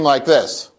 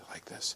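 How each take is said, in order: First: The voice is a loud scream. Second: The voice is very soft and quiet. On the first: "Or I can scream like this" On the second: "I can speak very softly like this"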